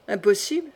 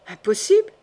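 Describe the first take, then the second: First: Subdued echoed question, back at normal pitch; sober echo. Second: Higher, louder questioning cry; startled disbelief. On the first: Brother echoing his shocked sister, sober and restrained. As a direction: throw the word back without alarm. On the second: Sister to her brother on hearing of the crime, startled disbelief. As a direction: let the question leap up in shock. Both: Acted.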